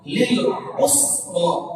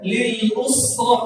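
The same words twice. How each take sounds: First: Usra begins with a throaty ain sound. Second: Usra begins with a plain glottal stop. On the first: The speaker calls it right. "mesti lil lil lil usra" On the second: The speaker calls it wrong. "Jadi ham hamzah. Jadi jangan dibaca"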